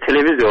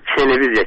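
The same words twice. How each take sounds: First: The first t is a plain t. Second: The first t sounds close to ch. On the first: It follows the native pronunciation habit. The speaker calls it right. "Televiziya ilə televiziya olmalıdır" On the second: It follows the Russian pronunciation habit. The speaker calls it wrong. "televiziya kimi tələffüs olunur"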